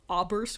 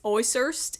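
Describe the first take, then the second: First: The middle of the name has a B sound. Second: The middle of the name has an S sound. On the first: The speaker calls it wrong. "instead of oberst, which I think is what I was, what I was saying" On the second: The speaker calls it right. "So it's oys oysters"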